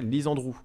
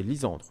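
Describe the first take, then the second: First: "Lisandrou" with a full, accented final -ou; wrong pronunciation. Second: "Lisandre" stressed on SAN with a light, swallowed ending; correct pronunciation. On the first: Host showing the mistaken reading, "Lisandrou" with stressed final -ou. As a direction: land clearly on the last syllable -DROU of "Lisandrou". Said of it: "sinon ça se prononcerait Lisandrou". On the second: Host correcting a viewer, "Lisandre" with stress on SAN. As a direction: stress the middle of "Lisandre", barely sound the ending. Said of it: "Moi, c'est Lisandre". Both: Shown as a demonstration.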